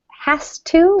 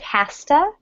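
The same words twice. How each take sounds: First: The words are said fully and separately. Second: The words are reduced and run together.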